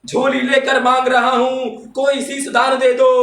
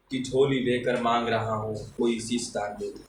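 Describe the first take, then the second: First: High, louder poetic appeal; fiery declamation. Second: Said in the usual way. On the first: Acted. Reciter begging the audience for sacrifice, fiery declamation. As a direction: make it a ringing public demand. Verse repeated at full force.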